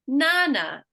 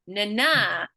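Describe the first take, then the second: First: The stress is on the first syllable. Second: The stress is on the second syllable. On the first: "we're either going to emphasize that first one" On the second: "If it's a second one, it's going to follow this rhythm"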